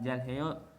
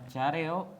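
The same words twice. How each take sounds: First: The h sound is clearly pronounced. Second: The h sound is dropped and blended away. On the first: The speaker calls it wrong. "bukan 잘해요" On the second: The speaker calls it right. "Jadi dibacanya 잘해요"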